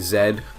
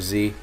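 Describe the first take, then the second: First: The letter is said the Australian way. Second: The letter is said the speaker's own way. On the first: This is how people from elsewhere say it. "when Australians say Z" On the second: This is the speaker's own way of saying it. "instead of the letter Z"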